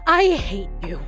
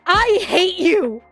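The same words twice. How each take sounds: First: The line is said forcefully without screaming. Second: The line is screamed loudly and violently. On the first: "If you don't feel like screaming it, then you just see an exclamation point like" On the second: "only one visceral, violent, angry phrase comes out of your mouth"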